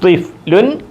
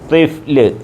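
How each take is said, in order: First: The word ends with an -un ending. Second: The word ends without any vowel ending. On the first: "ത്വിഫ്ലുൻ എന്നാണ് ഫുൾ സ്റ്റോപ്പിൽ നിർത്തുമ്പോൾ നാം പറയുന്നത്" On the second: "full സ്റ്റോപ്പിൽ വഖഫ് ചെയ്യുമ്പോൾ സുക്കൂനിലാണ് നിർത്തുന്നത്"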